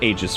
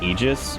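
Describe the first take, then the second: First: The first vowel is not an 'ee' sound. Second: The first vowel is an 'ee' sound. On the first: "I heard Aegis forever" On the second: "which would make sense because of like ether"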